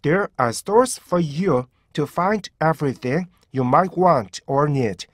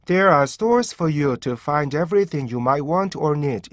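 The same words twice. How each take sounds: First: Slow "There are stores for you", each group cut off cleanly; careful demo with clear breaks up to "need"; crisp stop sounds. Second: "There are stores for you" slurred straight on without breaks; loose, unseparated learner reading from "There" to "need"; no stop sounds. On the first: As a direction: separate "find everything" and "might want or need" with tiny stops. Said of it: "정확히 스탑 사운드가 적용이 되잖아요". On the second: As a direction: run every word together through "want or need". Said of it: "스탑 사운드가 없는 상태로 만약에 읽게". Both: Shown as a demonstration.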